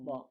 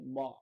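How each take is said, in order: First: The b sound is light and thin. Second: The b sound is heavy and thick. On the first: The speaker calls it right. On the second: The speaker calls it wrong. "Kalau nggak kita jaga ba, dia pasti ba"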